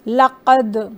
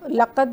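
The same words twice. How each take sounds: First: The final d is released with a slight echo. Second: The final d is stopped flat with no echo. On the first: The speaker calls it right. "थोड़ा सा ज़्यादा इसको एक्विंग करेंगे" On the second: The speaker calls it wrong. "हम इसको लक़द नहीं पढ़ेंगे"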